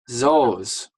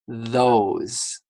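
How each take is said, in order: First: It starts without a 'th' sound. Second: It starts with a clear 'th' sound. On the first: The speaker calls it wrong. "If you say this, those, that's wrong" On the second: The speaker calls it right. "You need to make sure your tongue comes out"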